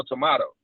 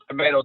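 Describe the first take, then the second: First: Tomato said with "mah" in the middle; British-style "tomato" with an ah sound; tomato, broad A. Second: Tomato said with "may" in the middle; American-style "tomato" with an ay sound; tomato, long A. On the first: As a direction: say tomato as tuh-MAH-toh. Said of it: "a couple different ways". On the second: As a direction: say tomato as tuh-MAY-toh. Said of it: "Same words, different meaning". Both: Shown as a demonstration.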